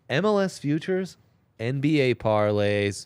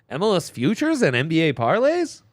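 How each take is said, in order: First: The phrase is said as a plain statement. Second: The phrase is asked as a rising question. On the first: The speaker calls it wrong. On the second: The speaker calls it right.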